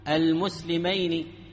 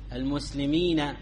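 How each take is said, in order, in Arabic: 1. تأتي بعد النون الأخيرة الحركة 'i'. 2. تأتي بعد النون الأخيرة الحركة 'a'. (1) "ونون المثنى مكسورة" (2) "فنون جمع المذكر السالم مفتوحة"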